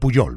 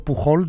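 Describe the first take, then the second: First: The middle consonant is a soft y sound. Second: The middle consonant is a harsh Spanish j sound. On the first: The speaker calls it wrong. "no he de decir Puyol" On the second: The speaker calls it right. "digo bien"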